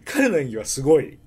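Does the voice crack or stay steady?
steady. The voice stays steady without cracking.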